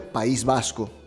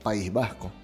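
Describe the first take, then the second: First: The s is a clear hissing sound. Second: The s is a breathy h-like sound. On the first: "como S" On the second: "como un fonema aspirado"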